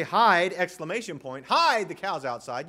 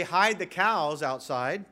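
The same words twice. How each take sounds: First: Hide! shouted, then hide the cows outside; an alarmed call to hide at once; urgent warning. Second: Hide the cows outside said slowly and evenly as one instruction; a steady, even command; plain command. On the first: Warning people to hide themselves, a loud urgent Hide!. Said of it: "you mean conceal yourself". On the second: Explaining the first meaning, slow and even. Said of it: "you mean conceal the cows". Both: Shown as a demonstration.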